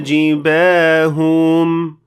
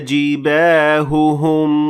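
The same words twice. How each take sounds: First: Only one lengthened h sound is heard. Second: Two distinct h sounds are heard. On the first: The speaker calls it wrong. "Here I pronounced only one ha, maybe a bit longer" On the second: The speaker calls it right. "This is what it's supposed to sound like"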